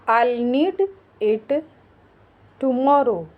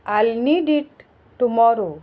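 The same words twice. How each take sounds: First: Separated, with a long pause before "tomorrow"; word by word. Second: Said in the usual way. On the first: Shown as a demonstration. Teacher modelling English for learners, word by word. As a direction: lay the words out one at a time.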